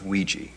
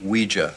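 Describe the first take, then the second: First: The word does not end like German 'ja'. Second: The word ends like the German word 'ja'. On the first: The speaker calls it wrong. "not Ouija" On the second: The speaker calls it right. "It's pronounced Ouija"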